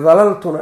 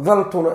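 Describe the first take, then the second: First: "dalaltuna" with both l's sounded; uncontracted form. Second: "daltuna" with one single l before the t; contracted form. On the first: Teacher giving the full verb, "dalaltuna" with two l's. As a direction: punch out "dalaltuna" louder, da-lal-tu-na. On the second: Teacher giving the contracted verb, "daltuna" with one l. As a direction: say "daltuna" short, dal-tu-na. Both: Shown as a demonstration. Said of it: "ay u dhahaan".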